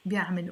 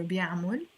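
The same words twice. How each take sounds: First: First بيعمل ending in -mil; i in the last syllable of بيعمل; alternative pronunciation. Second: بيعمل ending in -mol; o in the last syllable of بيعمل. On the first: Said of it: "Not wrong if you say it". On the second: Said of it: "with the O". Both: Shown as a demonstration.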